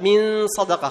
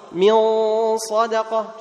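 First: من صدقة with a light, thin nasal ghunna; wrong thin ghunna. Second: من صدقة with a full, heavy nasal ghunna. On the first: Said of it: "خطأ". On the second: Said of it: "تفخم". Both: Shown as a demonstration.

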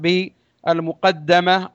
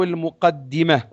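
First: المقدمة said as al-muqaddama, with an "a" after the doubled d; fatha on dal. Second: المقدمة said as al-muqaddima, with an "i" after the doubled d; "di" in place of "da" in المقدمة; kasra on dal. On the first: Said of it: "على الوجهين بفتح الدال". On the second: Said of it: "وكسرها". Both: Shown as a demonstration.

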